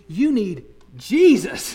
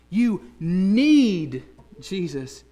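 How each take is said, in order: First: The stress is on the word Jesus. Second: The stress is on the word need.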